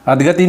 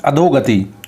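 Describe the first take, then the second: First: अधगति with no o after "dh"; wrong pronunciation. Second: अधोगति with a long o; correct pronunciation. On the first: Teacher shows what not to say, o-less mispronunciation. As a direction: run अधगति as adh-gati. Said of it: "नहीं बोलते". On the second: Teacher corrects the word for students, clear o. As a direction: sound a clear "dho" in अधोगति. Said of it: "इसको बोलते हैं अधोगति". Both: Shown as a demonstration.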